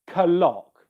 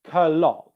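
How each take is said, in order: First: The K pops audibly before the L. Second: The K pops audibly before the L.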